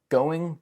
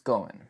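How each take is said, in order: First: The final G sound is pronounced. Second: The final G sound is dropped.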